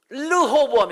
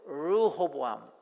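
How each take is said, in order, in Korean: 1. 첫 자음은 분명한 R 소리가 아니에요. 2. 첫 자음은 분명한 R 소리예요. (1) "르호보암이 아니고" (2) "르, 알 발음이에요"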